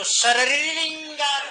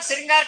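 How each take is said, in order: First: The start is said as 'shariri' with extra syllables. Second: The start is said as one cluster 'shri'. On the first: The speaker calls it wrong. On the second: The speaker calls it right.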